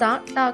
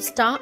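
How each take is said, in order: First: A vowel separates the s and t sounds. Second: The s and t sounds join with no vowel. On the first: The speaker calls it wrong. "సా టా కాకుండా" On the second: The speaker calls it right. "సంయుక్త శబ్దం స్టా"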